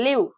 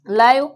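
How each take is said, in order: First: Live pronounced "leev"; "ee" vowel. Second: Live pronounced "laiv", said louder; "ai" vowel. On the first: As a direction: say live with an "ee" sound. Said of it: "L E A V E". (live ಅನ್ನು "ಲೀವ್" ಎಂದು ಉಚ್ಚಾರಣೆ) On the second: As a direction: make live rhyme with "five". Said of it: "L I V E". (live ಅನ್ನು "ಲೈವ್" ಎಂದು ಉಚ್ಚಾರಣೆ) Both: Shown as a demonstration.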